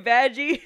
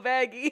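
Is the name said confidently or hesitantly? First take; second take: confidently; hesitantly. First: The name is said boldly and firmly. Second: The name is said softly and tentatively.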